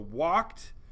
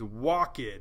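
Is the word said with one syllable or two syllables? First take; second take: one syllable; two syllables. First: The word is said as one syllable. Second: The word is said as two syllables. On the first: "which is one syllable" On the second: "two syllables"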